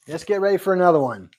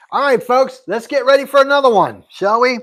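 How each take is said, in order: First: Said in the usual way. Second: Pitched up and louder, rallying the viewers; hyped announcer call. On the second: Real, not acted. Host rallying stream viewers before the next gift, in a hyped-up call. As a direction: rev up the chat like a game show host.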